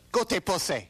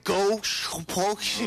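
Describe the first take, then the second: First: Four syllables are spoken, ending in 'se'. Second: Three syllables are spoken, ending in 'shi'. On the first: The speaker calls it right. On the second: The speaker calls it wrong. "So how did I pronounce it? Isn't that right?"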